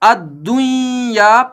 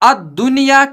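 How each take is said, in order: First: The n merges into a doubled y sound. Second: The n is pronounced clearly before the y. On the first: "पढ़ा जाता अगर यह नून साकिन पहले कलमा के आखिर में होता" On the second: "के बजाय"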